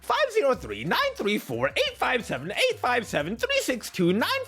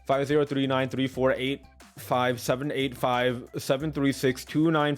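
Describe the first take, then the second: First: It is said in a Monokuma impression voice. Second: It is said in a natural voice.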